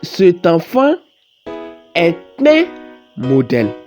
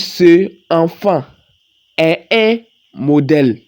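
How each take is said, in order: First: A t sound links into enfant. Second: No consonant links into enfant. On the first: The speaker calls it right. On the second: The speaker calls it wrong.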